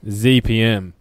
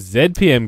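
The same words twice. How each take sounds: First: The letter Z is said the American way. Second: The letter Z is said the British way. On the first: The speaker calls it wrong. "I'll never say Z P M" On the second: The speaker calls it right. "It's f***ing Z P M, guys. Get it right"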